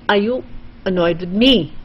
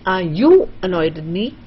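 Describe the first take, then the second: First: The stress falls on the word me. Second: The stress falls on the word you. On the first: "then you want to stress on me" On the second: "you want to stress on you"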